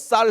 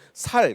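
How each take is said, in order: First: The first consonant is said tense. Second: The first consonant is said plain. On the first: "너 쌀 해 봐" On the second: "그러면 이제 살"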